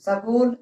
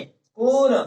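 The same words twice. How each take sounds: First: स्कूल said as "सकूल" with an extra vowel at the start; wrong पहले स वाला स्कूल. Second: स्कूल said louder with no vowel before स्क; correct school. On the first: Teacher showing the common mistake, स्कूल as सकूल. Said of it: "कई जगह तो ऐसा बोलते हैं". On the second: Teacher models the right word to the class, louder. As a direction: punch a clean स्कूल, no added vowel. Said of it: "स्कूल नहीं बोलेंगे". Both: Shown as a demonstration.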